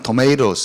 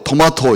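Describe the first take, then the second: First: It is said in an American accent. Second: It is said in a British accent. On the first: This was thought to be the proper way. "이렇게 해줘야 되고" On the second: This was thought to sound unsophisticated. "이렇게 하면 촌스러운 건 줄 알았어요"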